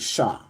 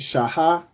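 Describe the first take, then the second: First: It is said as one syllable. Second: It is said as two syllables. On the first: The speaker calls it right. "you would just say sha" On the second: The speaker calls it wrong. "instead of saying shaha"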